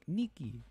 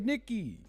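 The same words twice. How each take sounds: First: The name is said with a Spanish accent. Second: The name is said with an English accent. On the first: The speaker calls it right. "they're like Latinos and they're saying it in Spanish" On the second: The speaker calls it wrong. "Not like that"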